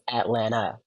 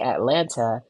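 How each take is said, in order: First: The second T sound is dropped. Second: The second T sound is clearly pronounced. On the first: The speaker calls it right. "It is pronounced Atlanta. No one pronounces the second T in Atlanta" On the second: The speaker calls it wrong. "a lot of these podcasters say Atlanta. Atlanta does not exist"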